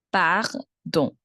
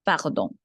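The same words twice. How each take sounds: First: Pardon split slowly into par, then don; syllable by syllable. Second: Said in the usual way. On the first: Shown as a demonstration. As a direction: pause between par and nasal don. Teacher breaks word in two.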